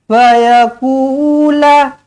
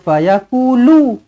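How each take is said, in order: First: The final syllable ends in an 'a' vowel. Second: The final syllable ends in a 'u' vowel. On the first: The speaker calls it right. "lam baris atas eh" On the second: The speaker calls it wrong. "Jangan baca fayaqulu"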